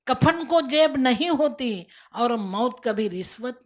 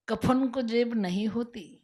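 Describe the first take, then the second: First: Louder, slow, weighty repeat; emphatic repeat. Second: Said in the usual way. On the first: Shown as a demonstration. The voice repeats the proverb to the despairing woman, emphatic. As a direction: drive the saying home the second time.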